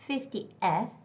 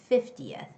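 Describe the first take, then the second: First: The vowel before 'th' is full and stressed. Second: The vowel before 'th' is a blurred schwa. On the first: The speaker calls it wrong. "But it's not fiftieth, it's not fiftieth, because guys, there's no stress on that E" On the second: The speaker calls it right. "it's schwa, okay? It's the sound of schwa. So you sort of like blur the sound"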